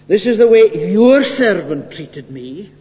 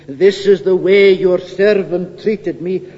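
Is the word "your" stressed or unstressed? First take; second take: stressed; unstressed. First: The word "your" is emphasized. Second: The word "your" is not emphasized.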